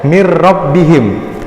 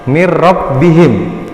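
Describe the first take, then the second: Both takes have the same delivery.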